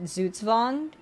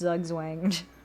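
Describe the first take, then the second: First: The word starts with a German ts sound. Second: The word starts with a plain English z sound. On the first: This follows the original foreign pronunciation. "based on a German word uh, pronounced" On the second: This is meant to sound funnier. "it would sound a lot funnier if it was pronounced"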